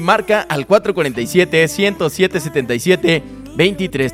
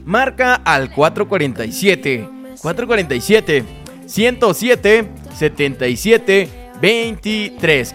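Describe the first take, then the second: First: The number is said at normal speed. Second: The number is said more slowly.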